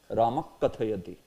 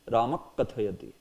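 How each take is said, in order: No difference in how they are said.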